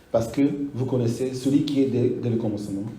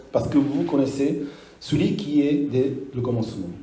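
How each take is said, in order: Both takes have the same delivery.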